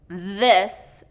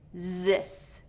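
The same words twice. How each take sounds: First: It begins with a voiced th sound. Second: It begins with a z sound. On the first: The speaker calls it right. "instead of this" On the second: The speaker calls it wrong. "I'll hear this"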